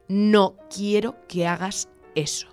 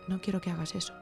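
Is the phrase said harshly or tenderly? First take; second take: harshly; tenderly. First: The phrase is said in a harsh, striking tone. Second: The phrase is said in a soft, caressing tone. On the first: The words are used to hit the other person. "le puedo golpear con las palabras" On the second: The words are used to caress the other person. "mi estrategia es acariciarle"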